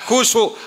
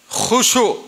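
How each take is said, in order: First: The word begins with a plain hard k sound. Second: The word begins with a rough throaty kh sound. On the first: The speaker calls it wrong. "ora kusuk" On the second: The speaker calls it right. "Khusuk, ora kusuk"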